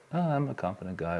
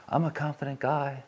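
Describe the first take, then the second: First: Quick, offhand mock bravado; mock confidence. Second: A higher-pitched, puffed-up show of bravado; fake confidence. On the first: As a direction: toss it off as hollow self-talk. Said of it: "I don't say it as if like". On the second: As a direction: pretend to be a confident guy, slightly hammed up. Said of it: "I could try and fake it".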